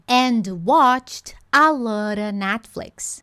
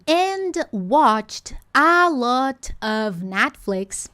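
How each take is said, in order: First: 'A lot of' is blended into one reduced chunk. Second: Each word of 'a lot of' is said in full. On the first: "tá tudo bem se eu ouvir" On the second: "ao invés de eu criar a expectativa de ouvir"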